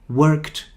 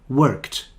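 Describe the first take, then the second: Both takes have the same delivery.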